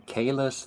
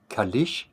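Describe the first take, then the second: First: The name ends with a plain s sound. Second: The name ends with an sh sound. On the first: The speaker calls it right. "when they want to say Kalis" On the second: The speaker calls it wrong. "they say like Kalish. What?"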